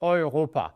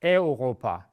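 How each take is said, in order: First: Europa said "oi-ropa"; Europa, "eu" as in "boy"; right pronunciation. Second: Europa said "eh-ropa"; Europa, the wrong English-like start; wrong pronunciation. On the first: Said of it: "It's also not Europe". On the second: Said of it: "It's not Europa". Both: Shown as a demonstration.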